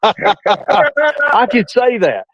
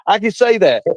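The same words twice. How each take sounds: First: Stretched very slow and a bit higher; drawn out. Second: Said in the usual way. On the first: Acted. Gloating to his co-host, drawn out very slowly. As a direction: savour each word, dragging it out. Teasing repeat of own joke.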